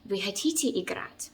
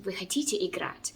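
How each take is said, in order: First: The word хотите carries the main stress. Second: The same.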